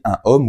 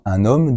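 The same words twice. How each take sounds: First: No n sound links into homme. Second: An n sound links into homme. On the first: The speaker calls it wrong. "tu ne diras jamais" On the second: The speaker calls it right. "tu dois faire la liaison"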